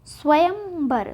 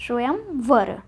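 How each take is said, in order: First: स्वयंवर drawn out with b in the last syllable; slow, mistaken bar ending in स्वयंवर; wrong b sound. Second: स्वयंवर with v in the last syllable; var, not bar, ending स्वयंवर; correct v sound. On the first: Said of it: "स्वयंवर नहीं होता". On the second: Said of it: "लेकिन होता क्या है". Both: Shown as a demonstration.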